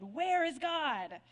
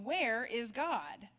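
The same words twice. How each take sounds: First: Slow, slightly louder booming preacher; preacher losing patience with the silent boy, bellowing; mild bellow. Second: Slow, deliberate stern question; a big preacher getting sterner, slow words. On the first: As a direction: lean in and boom the question. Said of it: "raised his voice even more and ... bellowed". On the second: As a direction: press the boy with measured sternness. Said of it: "in an even sterner tone". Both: A narrator's reading.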